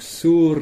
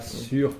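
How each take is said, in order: First: The vowel is a back rounded 'oo' sound. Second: The vowel is the French front rounded 'u'. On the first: The speaker calls it right. "bien prononcer sur" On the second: The speaker calls it wrong. "pas sur comme en français"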